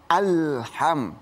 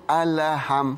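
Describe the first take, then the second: First: The l is plain, with no bounce. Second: The l is bounced with an echo. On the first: The speaker calls it right. "Jadi alham" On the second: The speaker calls it wrong. "Jadi nggak boleh alham"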